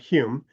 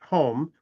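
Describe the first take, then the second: First: The name rhymes with fume. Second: The name rhymes with foam. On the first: The speaker calls it right. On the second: The speaker calls it wrong.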